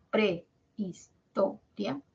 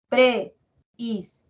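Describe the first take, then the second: First: Prehistoria said slowly, diphthong kept together; slow joined demo of prehistoria; syllables joined. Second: Prehistoria split apart, pre-his-to-ri-a, slowly; slow split-up demo of Prehistoria; separated syllables. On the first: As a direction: glide prehistoria as one run. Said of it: "o será prehistoria". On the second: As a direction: break Prehistoria into pieces. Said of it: "así, separado así". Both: Shown as a demonstration.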